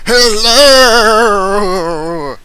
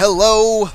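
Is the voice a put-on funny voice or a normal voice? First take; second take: funny; normal. First: It is said in a put-on funny voice. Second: It is said in a normal speaking voice.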